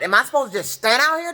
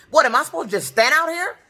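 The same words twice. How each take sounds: First: Said in the usual way. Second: Higher, pushed, indignant question; raised angry tone. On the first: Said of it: "That's when my tone got". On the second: Shown as a demonstration. Stranded at the bus stop, confronting the dispatcher, raised indignant tone. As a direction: demand it of the bus dispatcher, fed up. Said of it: "my tone got just like it is now".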